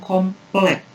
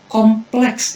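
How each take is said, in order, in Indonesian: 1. Kata itu berakhir dengan bunyi k. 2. Kata itu berakhir dengan bunyi ks. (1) "bukan komplek"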